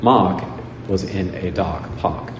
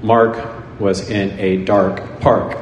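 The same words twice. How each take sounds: First: "dark park" said "dahk pahk", no R at all; dropped R. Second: Every R rolled out, slow: Mark, dark, park; American R. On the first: Showing how the British say it, R dropped. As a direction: drop every R: Mahk, dahk, pahk. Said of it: "they would say". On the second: Showing how Americans say it, strong R. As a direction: lean hard into the R in "dark park", slowly. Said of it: "if we say". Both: Shown as a demonstration.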